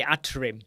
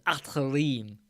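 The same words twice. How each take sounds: First: Said in the usual way. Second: Atrim said slowly with a light rolled middle, like ætəlim; Vito's way of saying it. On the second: Shown as a demonstration. Host copying guest's name for viewers, slow careful Atrim. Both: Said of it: "But he says it properly".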